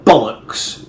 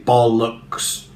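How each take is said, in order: First: The stress is on the first syllable. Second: Both syllables are stressed evenly. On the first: The speaker calls it right. "put the stress on the first syllable" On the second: The speaker calls it wrong. "evenly distribute the stresses. You wouldn't say bollocks"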